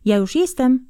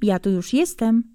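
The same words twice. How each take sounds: First: Mock call. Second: Wife's greeting. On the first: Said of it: "zawołasz". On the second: Acted. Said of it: "wita go pani Jeżowa tymi słowy".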